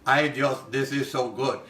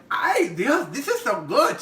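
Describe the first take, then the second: First: Lower, plainer "Ay, Dios", anglicized; imitating friend's flat accent. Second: Higher, excited "Ay, Dios, this is so good"; imitating friend's delight. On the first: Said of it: "She said it like this". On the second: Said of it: "And she's like".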